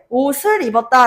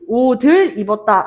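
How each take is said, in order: First: The consonant before the vowel sounds like s. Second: The consonant before the vowel sounds like d. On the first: The speaker calls it right. "라고 이야기를 하잖아" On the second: The speaker calls it wrong. "라고도 하지 않아"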